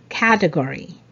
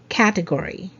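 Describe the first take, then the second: First: The stress falls on the first syllable. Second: The same.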